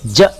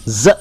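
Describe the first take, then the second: First: ज said as English j; j sound. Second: ज said as a buzzing z; z sound. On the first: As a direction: give ज the j sound to be avoided. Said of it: "ज sound ना करें". (ज बिना नुक़्ते वाली आवाज़ में) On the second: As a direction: give ज the correct z sound. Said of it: "ज साउंड करें". (ज को नुक़्ते वाले ज़ की आवाज़ में) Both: Shown as a demonstration.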